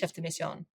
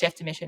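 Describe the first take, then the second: First: It is said with a French pronunciation. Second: It is said with an Australian English pronunciation. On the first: "In France, it's chef de mission" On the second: "in Australia, it's chef de mission"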